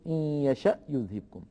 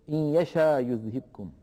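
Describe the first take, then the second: First: The second word ends with a clear glottal stop. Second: The second word ends in a long vowel, no glottal stop. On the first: This is the reading of Warsh. "بل يقول إن يشأ يذهبكم" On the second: This is not the reading of Warsh. "لا يقول ورش إن يشاء يذهبكم"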